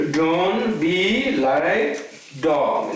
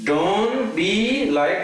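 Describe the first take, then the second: First: "Don't be like dog" very slow, rising on "be"; slow, drawn-out saying. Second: "Don't be like" molto lento, con enfasi su "be"; slow, drawn-out saying. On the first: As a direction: drag out each word for weight. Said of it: "You heard this, example before?". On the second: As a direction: stretch it out slowly. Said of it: "this is my favorite one". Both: Shown as a demonstration.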